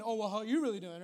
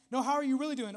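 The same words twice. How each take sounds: First: Mock deflection. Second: Mock concerned follow-up, pressing a little; acted probing question. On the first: Joker avoiding a serious conversation, deflecting question back. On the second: Friend pushing past the small talk, probing question. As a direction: press lightly for the real answer.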